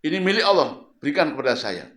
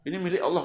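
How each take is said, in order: First: Loud, coarse demand; loud rude stranger grabbing the shawl. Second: Said in the usual way. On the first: Retold or imitated. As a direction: demand it rudely, loudly. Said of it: "Ngomongnya kasar, nggak sopan". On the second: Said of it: "Ngomongnya kasar".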